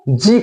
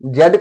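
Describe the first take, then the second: First: The letter is said as zee. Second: The letter is said as zed. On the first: "American में जी कहा जाता है" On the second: "British accent में British टंग में जेड कहा जाता है"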